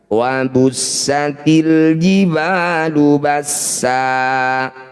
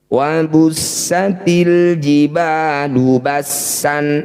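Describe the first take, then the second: First: The last word ends with a long vowel. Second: The last word ends with an n sound. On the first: The reading stops at this word. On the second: The reading continues without stopping.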